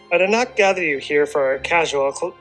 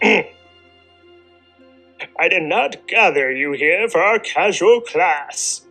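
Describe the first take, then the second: First: It is said in a normal speaking voice. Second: It is said in a put-on Odin character voice.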